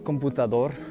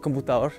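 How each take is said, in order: First: Every consonant in the word is clearly pronounced. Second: A consonant in the word is dropped. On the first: This is not how people in Bogota say it. "We don't say computador" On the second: This is how people in Bogota say it. "We say computador, ... we don't pronounce all the consonants"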